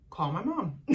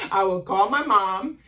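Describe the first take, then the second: First: Said in the usual way. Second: "my" hit louder with a rise in "I would call my mom"; louder repeat stressing "my". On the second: Real, not acted.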